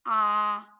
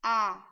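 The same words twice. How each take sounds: First: The vowel is long, as in car. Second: The vowel is short, as in cat. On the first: "the long vowel sound of the letter A" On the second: "The short vowel sound A"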